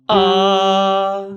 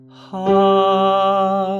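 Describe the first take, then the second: First: The vowel begins with a sharp throat catch. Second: The vowel begins smoothly without a throat catch. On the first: The speaker calls it wrong. "and here is a glottal" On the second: The speaker calls it right. "Here's a balanced onset"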